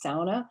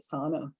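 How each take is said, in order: First: It is said the local, Finnish-like way. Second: It is said the general English way. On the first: The speaker is a local of the area. "that doesn't mean everybody in the U P says sauna" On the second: The speaker is not from the area. "English is probably only a language that pronounces it sauna"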